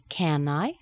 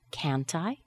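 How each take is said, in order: First: "Can I" for can't I, no T, rising; T removed. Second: "can't I" with audible T, rising; T pronounced. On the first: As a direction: drop the T so it sounds like CAN I. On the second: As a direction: release the T in CAN'T into I. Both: Shown as a demonstration. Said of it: "Sometimes we would remove that T".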